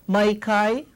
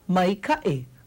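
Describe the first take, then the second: First: The vowels in the second word glide together smoothly. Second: A glottal catch separates the vowels in the second word. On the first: The speaker calls it wrong. "without the okina, you see what happens? It comes out to mai kai. Doesn't mean anything" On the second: The speaker calls it right. "it separates these two vowel sounds so that we have a clear ka'i"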